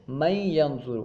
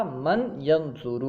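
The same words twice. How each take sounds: First: "من ینظر" with the noon melted into a held ya; merged noon (idgham). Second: "من ینظر" slowly, with a distinct n before the ya; original unmerged noon. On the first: Teacher shows students noon joined into ya, "من ینظر" merged. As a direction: recite "من ینظر" slowly, running noon into ya. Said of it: "نون کو یا میں ملا دیا". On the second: Teacher shows students the original form, "من ینظر" with clear noon. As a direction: keep "من" separate, sounding its noon fully. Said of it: "اصل میں کیا تھا؟". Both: Shown as a demonstration.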